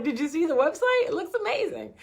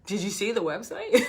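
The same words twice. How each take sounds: First: Much higher, mock-giddy pride; giddy high voice showing off a website; high, excited self-quote. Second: Laughing quote. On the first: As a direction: squeal it like the site is perfect. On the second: Retold or imitated. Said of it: "we're like, we're saying".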